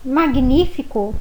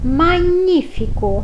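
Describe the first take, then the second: First: G and N are pronounced as separate sounds. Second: G and N merge into one 'ny' sound.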